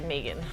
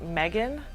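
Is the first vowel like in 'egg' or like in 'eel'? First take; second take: eel; egg. First: The first vowel is a long 'ee' sound. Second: The first vowel is a short 'eh' sound. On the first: This is the name's real pronunciation. The speaker calls it right. "it's actually Megan" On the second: This is how people first guess the name. The speaker calls it wrong. "people when they first hear it, they think"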